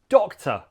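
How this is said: The second syllable is reduced to a schwa. The speaker calls it right. "first is the O sound, doc. Next is the schwa sound, t"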